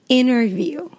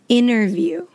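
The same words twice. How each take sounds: First: The T after the N is dropped. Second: The same.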